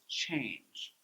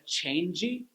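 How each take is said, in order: First: The word ends cleanly on the j sound. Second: An extra vowel syllable follows the final j sound. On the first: The speaker calls it right. "it's change" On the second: The speaker calls it wrong. "drop that extra syllable"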